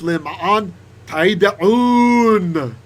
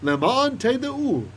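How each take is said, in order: First: It is said with a raised, emphatic voice. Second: It is said in a plain, unraised voice.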